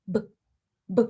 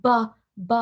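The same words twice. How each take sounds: First: "b" very short, almost no vowel; clipped b. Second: "b" with an added uh; wrong buh. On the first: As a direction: clip the "b" short. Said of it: "very short, very clipped". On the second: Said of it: "The B sound is not". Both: Shown as a demonstration.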